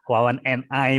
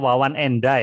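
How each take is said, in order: First: 'And' and 'I' are said as separate words. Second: 'And' and 'I' run together as one linked unit. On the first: It is acceptable but less native-like. "nggak apa-apa, tidak dosa, tidak salah" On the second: It sounds like a native speaker. "Kalau pengen terdengar alami seperti penutur uh, asli bahasa Inggris"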